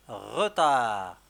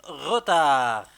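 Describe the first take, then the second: First: Said in the usual way. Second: Retard said loud and drawn out, falling at the end; loud dictation. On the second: Shown as a demonstration. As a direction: say retard loudly and slowly for dictation. (نطق retard بصوت عالٍ وبطيء) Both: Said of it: "On va écrire".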